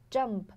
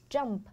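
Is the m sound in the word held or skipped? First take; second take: held; held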